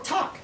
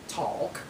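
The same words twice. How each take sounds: First: The word is said with a silent L. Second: The word is said with an audible L. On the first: "Or talk" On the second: "You don't say talk"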